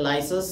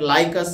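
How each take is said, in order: First: The middle consonant is an s sound. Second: The middle consonant is a k sound. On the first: This is the American way of saying it. "American అయితే లైసస్ అని అంటారు" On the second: This is how some other people say it. "కొందరేమో దీనిని లైకస్ అని అని అంటుంటారు"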